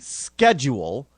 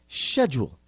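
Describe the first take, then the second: First: The word is said in a non-British way. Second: The word is said in a British way. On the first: The speaker calls it wrong. "they will look at you like you're a nut job" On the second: The speaker calls it right. "properly pronounced in the in the Queen's English as schedule"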